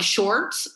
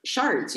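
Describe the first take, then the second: First: Said in the usual way. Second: "Sharts" with an AR vowel for "shorts"; "Sharts" rhyming with "hearts"; coach's Southern pronunciation. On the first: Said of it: "And I'm like". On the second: Retold or imitated. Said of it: "he's like".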